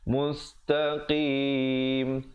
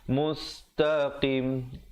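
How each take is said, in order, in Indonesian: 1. Vokal panjang sebelum akhir ditahan. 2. Vokal panjang sebelum akhir dipendekkan. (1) "diwaqafkan dengan sekurang-kurangnya dua, empat atau enam harakat" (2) "jangan kurang ... Salah"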